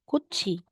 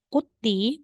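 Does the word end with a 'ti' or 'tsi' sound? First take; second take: tsi; ti. First: The last syllable is said with a ts sound. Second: The last syllable is said with a plain t. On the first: The speaker calls it right. "magiging kutsi" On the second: The speaker calls it wrong. "hindi mo sasabing kuti"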